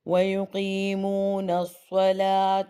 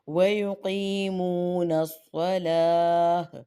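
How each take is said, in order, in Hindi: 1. आख़िरी शब्द साफ़ t की आवाज़ पर ख़त्म होता है। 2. आख़िरी शब्द हल्की h की आवाज़ पर ख़त्म होता है। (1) "अगर वस्लन करती हूँ" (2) "ता को साइलेंट हा में बदल दिया वक़्फ़न"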